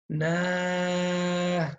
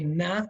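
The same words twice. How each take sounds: First: The vowel is drawn out long. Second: The vowel is short and cut off. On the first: The speaker calls it wrong. "Make sure you don't prolong the na" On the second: The speaker calls it right. "Always say na and stop"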